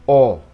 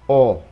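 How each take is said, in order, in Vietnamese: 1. Một nguyên âm ấm, gọn, với môi tròn chặt. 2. Một nguyên âm ấm, gọn, với môi tròn chặt.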